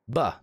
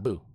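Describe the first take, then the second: First: The vowel is short and central, like 'buh'. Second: The vowel is long and rounded, like 'boo'. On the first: "It's Buh" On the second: "not Boo"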